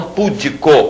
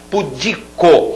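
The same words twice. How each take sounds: First: "pudico" as PÚ-di-co; mistaken first-syllable stress. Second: "Pudico" slowly as pu-DI-co; stress on DI. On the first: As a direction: hit the PU of "pudico". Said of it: "como muita gente fala". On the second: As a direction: lean on the middle of "Pudico". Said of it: "Olha as paroxítonas". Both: Shown as a demonstration.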